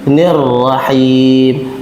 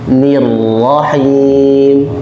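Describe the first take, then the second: First: The first vowel sounds like a vague 'e'. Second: The first vowel sounds like a clear 'i'. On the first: The speaker calls it wrong. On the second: The speaker calls it right.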